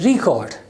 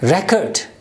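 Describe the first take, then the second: First: The stress is on the first syllable. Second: The stress is on the second syllable. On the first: The word is used as a verb. "when this word is used as a verb, then the stress is on the first syllable" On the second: The word is used as a noun. "If this word is used as a noun, it's record"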